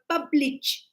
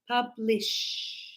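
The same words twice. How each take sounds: First: The word does not end with a sh sound. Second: The word ends with a sh sound. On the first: The speaker calls it wrong. "a lot of students sometimes I hear when they go publish. No" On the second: The speaker calls it right. "it's publish. Right? We said the S H"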